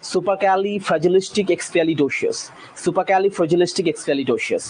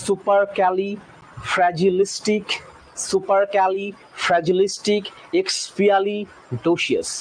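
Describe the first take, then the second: First: সুপারক্যালিফ্র্যাজিলিস্টিক এক্সপিয়ালিডোসিয়াস said as one smooth word; fluent demo at normal speed; run together. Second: সুপারক্যালিফ্র্যাজিলিস্টিক drawn out slowly, syllable by syllable; slow teaching demo; slow spelling-out. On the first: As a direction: join it all in one breath. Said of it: "একভাবে উচ্চারণ করলে". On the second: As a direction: stretch every syllable of এক্সপিয়ালিডোসিয়াস. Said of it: "সেকেন্ডটা". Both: Shown as a demonstration.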